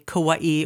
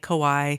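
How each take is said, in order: First: It is said with Hawaiian-style pronunciation. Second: It is said with English-style pronunciation. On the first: This is the authentic native pronunciation. "really the real Hawaiian way to say Kauai" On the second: This is how many locals casually say it. "a lot of us grew up just saying"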